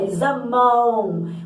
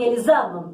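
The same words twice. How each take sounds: First: The ending is a nasal vowel with a u glide. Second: The ending is a plain vowel without a glide. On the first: The speaker calls it right. "a gente fala eles amam" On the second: The speaker calls it wrong. "A gente fala assim, eles amam, amam. Não"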